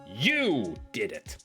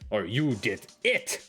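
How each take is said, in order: First: The stress is on "you". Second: The stress is on "it".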